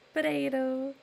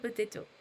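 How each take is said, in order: First: It is said in an American accent. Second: It is said in a British accent. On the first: "You Americans say" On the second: "I say"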